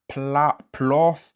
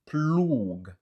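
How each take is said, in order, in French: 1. Il se termine par un son f. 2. Il se termine par un son g dur. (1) "Ni se pa plof" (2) "ni se pa ploug"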